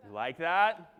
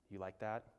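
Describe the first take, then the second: First: Said in the usual way. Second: Low, soft check-in; hushed. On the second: Shown as a demonstration. Checking the audience liked the secret tip, hushed. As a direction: ask it quietly, as if still sharing a secret. Still in the whispered aside.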